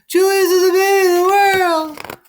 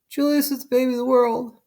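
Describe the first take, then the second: First: It is said louder. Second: It is said at normal, softer volume.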